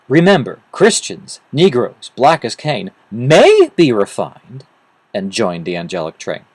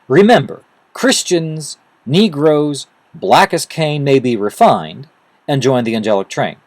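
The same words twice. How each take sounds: First: "May be refined" is read as a question. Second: It is read as a plain statement.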